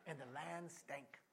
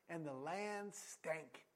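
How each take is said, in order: First: And the land stank, slow with a laugh; laughing repeat. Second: And the land stank, drawn out very slow; slow for effect. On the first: Preacher repeating the verse for laughs, chuckling. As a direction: repeat it amused, slowly. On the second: Preacher reading scripture, lingering on the land stank. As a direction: let each word land slowly. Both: Real, not acted. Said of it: "That's a good bumper sticker".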